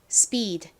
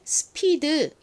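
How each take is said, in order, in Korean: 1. 미국식으로 한 음절로 말합니다. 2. 한국식 음절과 덧붙인 모음으로 말합니다. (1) "실제 미국식 발음으로는 speed, speed 이렇게 발음됩니다" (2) "한국식으로는 스피드 이렇게 발음을 하지만"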